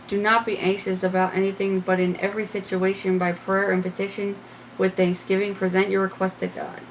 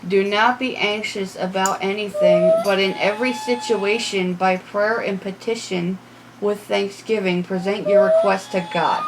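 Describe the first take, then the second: First: It is said at a normal pace. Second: It is said slowly and distinctly.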